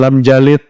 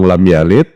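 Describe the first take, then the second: First: The second word begins with a j sound. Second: The second word begins with a y sound. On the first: The speaker calls it wrong. "sidin lam jalid. Beda pula" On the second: The speaker calls it right. "orang lam yalid"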